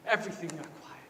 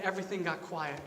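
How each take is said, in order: First: Soft, lower echo of the phrase; hushed. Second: Said in the usual way. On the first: Real, not acted. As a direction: let the voice drop into stillness. Repeats it hushed to show stillness.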